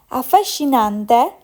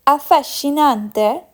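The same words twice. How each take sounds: The two takes are said the same way.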